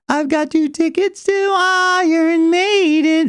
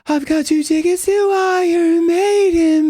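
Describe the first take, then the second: First: The voice is clear, with little air leaking. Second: The voice is breathy and leaks air.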